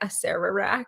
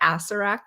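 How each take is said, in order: First: The middle syllables of the name are included. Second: The middle syllables of the name are dropped. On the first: The speaker calls it right. "but he's actually, like" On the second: The speaker calls it wrong. "I leave out the m second set of ERs in the middle, and so I wanna call him, like"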